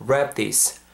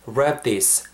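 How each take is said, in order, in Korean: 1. 두 단어가 자연스럽게 이어집니다. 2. 두 단어가 자연스럽게 이어집니다.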